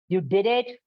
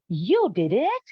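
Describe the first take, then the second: First: The question sounds displeased and disapproving. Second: The question sounds pleased and approving. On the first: The action is unwelcome. "That's bad" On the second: The action is welcome. "That's good"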